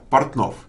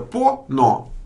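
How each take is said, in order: First: It is said with normal Russian consonant clusters. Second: It is said as open syllables without consonant clusters.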